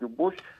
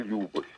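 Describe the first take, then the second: First: The stress is on the second syllable. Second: The stress is on the first syllable. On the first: This is the usual way most Russians say it. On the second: This is how people in Karelia say it.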